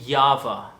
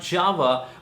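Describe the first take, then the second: First: The word begins with a Y sound. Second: The word begins with a J sound. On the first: The speaker calls it right. "The J is supposed to be pronounced as Ya" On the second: The speaker calls it wrong. "is not Java"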